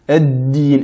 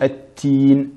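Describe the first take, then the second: First: The middle consonant is a d sound. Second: The middle consonant is a t sound. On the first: The speaker calls it right. "Ad-din et non at-tin" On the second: The speaker calls it wrong. "et non at-tin"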